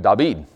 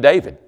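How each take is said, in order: First: The name is said with a B sound. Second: The name is said with a V sound. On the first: This is how the name is said in Israel. "They're going to make it a B sound" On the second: This is how the name is said here. "we're going to use a V as in volunteer sound"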